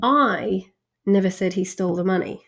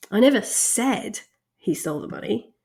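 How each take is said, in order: First: "I" hit hardest, rest of the sentence even; the speaker "I" made the prominent word; stress on I. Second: "never" hit hardest, with a rise at the end; "never" weighted, everything else neutral; stress on NEVER. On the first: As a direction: lean on the word "I" as if someone else said it. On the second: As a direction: lean on the word "never" in denial. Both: Shown as a demonstration. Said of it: "To demonstrate this".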